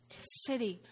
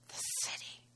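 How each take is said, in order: First: Said in the usual way. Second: Breathy whisper of the city. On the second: Shown as a demonstration. Pastor whispers the city's name to the congregation, hushed. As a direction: breathe the words, no voice.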